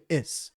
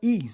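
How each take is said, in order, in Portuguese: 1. A vogal é um som de i curto. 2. A vogal é um som de ee longo. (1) "mas o certo em inglês é o i curto, fica is" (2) "muita gente fala is, né? Com i longo"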